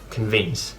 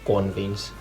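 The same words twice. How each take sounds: First: The stress is on the second syllable. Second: The stress is on the first syllable. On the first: The speaker calls it right. "instead of" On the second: The speaker calls it wrong. "in Finnish you always stress the first syllable"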